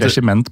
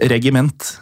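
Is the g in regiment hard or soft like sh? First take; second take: soft; hard. First: The g is sounded as in regissør. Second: The g is not sounded as in regissør. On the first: This is the pronunciation the hosts had assumed. "vi har jo tenkt regiment på grunn av regissør" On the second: This is the pronunciation others say is correct. "det uttales visst nok regiment"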